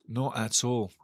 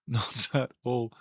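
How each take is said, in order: First: Said in the usual way. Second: Said through a laugh, slowly. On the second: Real, not acted. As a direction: let the laugh spill into the words.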